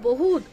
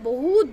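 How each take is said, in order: Both takes have the same delivery.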